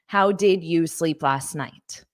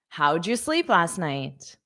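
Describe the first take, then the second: First: Each word is pronounced fully and separately. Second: The first words are run together and reduced. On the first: The speaker calls it wrong. "when you're pronouncing each word separately" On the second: The speaker calls it right. "my pronunciation sounded different from how the spelling looks"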